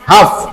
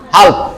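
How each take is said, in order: First: No L sound is heard before the final consonant. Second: An L sound is heard before the final consonant. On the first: The speaker calls it right. "ল ছাড়ে দেবো হাফ" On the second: The speaker calls it wrong. "তুমি এল ধরে বলো তাহলে হবে হাল্প"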